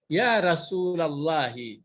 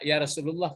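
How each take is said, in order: First: The name ends in 'lallahi' with a final vowel. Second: The name ends in 'lullah' with no final vowel. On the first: This is the Arabic form used when calling him. The speaker calls it right. "Jadi kalau memanggil Rasulullah" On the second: This is the Indonesian form of the call. The speaker calls it wrong. "kalau ya Rasulullah bahasa Indonesia"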